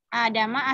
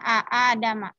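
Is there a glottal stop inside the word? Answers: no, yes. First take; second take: no; yes. First: One long vowel, with no glottal stop inside. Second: A glottal stop splits the vowel into two. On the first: This is how the word is actually read. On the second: This is the word's original form.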